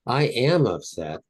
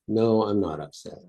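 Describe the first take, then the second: First: Slow, stressed "am"; stretched, emphatic "I AM upset"; emphatic insistence. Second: "No" stressed, then settling down; calm denial. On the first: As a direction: insist on it, drawing out "am". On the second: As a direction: contradict it evenly, falling on "upset". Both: Shown as a demonstration. Demonstrates insisting versus denying.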